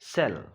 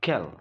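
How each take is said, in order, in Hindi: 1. शब्द की शुरुआत s ध्वनि से होती है। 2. शब्द की शुरुआत k ध्वनि से होती है। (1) "it is cell" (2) "not kel"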